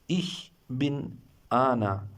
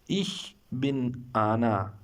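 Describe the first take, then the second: Both takes have the same delivery.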